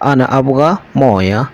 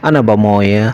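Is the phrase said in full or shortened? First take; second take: full; shortened. First: All three words are said in full. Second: The first two words merge into one shortened word. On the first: The speaker calls it wrong. "এটা না বলে" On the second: The speaker calls it right. "এভাবেই বলতে হয়"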